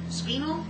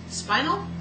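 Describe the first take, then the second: First: "spinel" with a long ee, rising at the end; higher, unsure second guess at "spinel", SPEE-nel. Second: "spinel" begun like "spine", rising at the end; higher, unsure "spinel" with a long i; spinel as SPY-nel. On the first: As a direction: say "spinel" with first syllable like "spee", questioning. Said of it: "like spine, S P I N E". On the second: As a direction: say "spinel" with first syllable like "spy", questioning. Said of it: "like spine". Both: Real, not acted.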